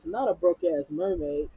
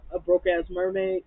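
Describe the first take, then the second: First: Firm "Not a broke-ass mermaid"; correcting. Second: Drunk mocking question. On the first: Retold or imitated. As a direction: stress on Not. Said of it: "Portia says". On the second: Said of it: "Fallon was like".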